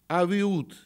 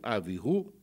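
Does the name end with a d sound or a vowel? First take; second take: d sound; vowel. First: The name ends with a d sound. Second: The name ends with an oo vowel. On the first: This is the familiar Russian form of the name. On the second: This is the exact Hebrew form of the name.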